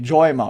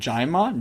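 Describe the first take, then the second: First: The first vowel is an 'o' sound. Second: The first vowel is an 'a' sound.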